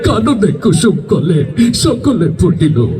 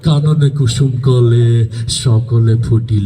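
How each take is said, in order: First: It is recited in a weeping, crying way. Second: It is recited in a menacing, frightening way. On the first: "ও কান্তি কাঁদতে কয়" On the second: "তোরটা তো আরো ভয়ঙ্কর শোনা গেল"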